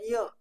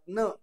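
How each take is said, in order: First: It is said as a 'y' through the nose. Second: It is said as a plain 'n' sound. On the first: "काही जण य करतात नाकातनं य" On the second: "काही जण न उच्चार करतात न"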